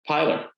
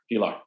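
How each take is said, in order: First: Pilar said as PIE-ler; mispronounced name. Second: Pilar said as pee-LAR; corrected pronunciation. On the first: Host unsure of a guest's name, Pilar mispronounced as PIE-ler. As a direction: say Pilar with a long "eye" and a weak ending. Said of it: "am I saying it correctly?". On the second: Host practising the guest's name, Pilar corrected to pee-LAR. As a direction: repeat Pilar with "ee" and a full final "ar". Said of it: "Pilar, sorry". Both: Real, not acted.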